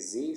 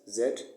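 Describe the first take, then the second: First: The letter is said the American way. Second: The letter is said the non-American way.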